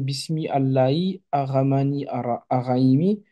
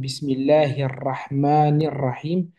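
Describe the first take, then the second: First: The words are read separately without linking. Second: The words are linked into one flowing unit. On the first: The speaker calls it wrong. "si on le prend, ça donne" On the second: The speaker calls it right. "on a des liaisons qui se forment"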